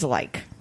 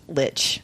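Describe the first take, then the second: First: The word is pronounced the German way. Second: The word is pronounced the English way. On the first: "The German pronunciation is" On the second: "at dictionary dot com it's pronounced"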